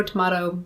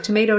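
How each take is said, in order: First: Tomato with a long open "ah"; to-MAH-to. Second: Loud tomato, middle vowel as in "day"; to-MAY-to. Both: Shown as a demonstration. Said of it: "people can pronounce it however they like".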